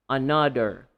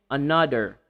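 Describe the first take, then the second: No difference in how they are said.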